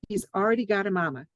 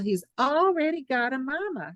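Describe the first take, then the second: First: It is said in the speaker's ordinary accent. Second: It is said in a Southern American accent.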